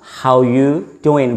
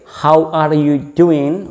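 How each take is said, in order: First: The word 'are' is dropped from the phrase. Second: Every word, including 'are', is clearly pronounced. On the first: "how you doing without the voice of R" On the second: "pronounce the phrase completely"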